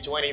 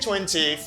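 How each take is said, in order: First: The T after the n is dropped. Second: The T after the n is clearly pronounced. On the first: This is the American way of saying it. "for American English" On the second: This is the British way of saying it. "for British English"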